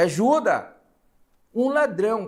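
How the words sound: There is a pause after 'ajuda', as a plea. Someone is begging for help because of a thief. "eu vou dar algumas entonações... pedindo aqui, ó, uma ordem"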